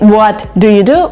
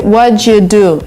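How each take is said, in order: First: Each word is said clearly and separately. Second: The words blend smoothly with a ch sound.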